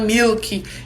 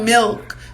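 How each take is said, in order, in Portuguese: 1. A palavra é dita com sons do português. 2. A palavra é dita com sons do inglês. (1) "falam milk" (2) "não falam milk"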